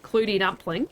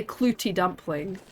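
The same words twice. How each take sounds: First: Kiwi clootie dumpling sliding into Australian; attempted Kiwi accent. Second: Clootie dumpling said the Scottish way; Scottish accent. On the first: Streamer showing viewers why it sounds wrong, botched Kiwi accent. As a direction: try "clootie dumpling" in Kiwi, rising at the end. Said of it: "like, a Kiwi accent". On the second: Streamer showing viewers her leftover Scottish words, Scottish accent. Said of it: "certain words I still say kind of Scottish". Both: Shown as a demonstration.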